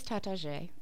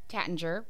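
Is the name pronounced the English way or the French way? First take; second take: French; English. First: The name is said with a fancy French sound. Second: The name is said as it looks in English. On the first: "want to pronounce it all fancy, it is Tatasche, is how they say it" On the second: "If you're looking at it, you're going to think it's Tattinger"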